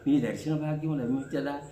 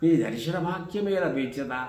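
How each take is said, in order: First: It is said in a romantic, longing tone. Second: It is said in a devotional, pleading tone. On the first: It is addressed to a beloved. "అది ప్రియురాలి" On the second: It is addressed to God. "దేవుడి దగ్గర అంటాం"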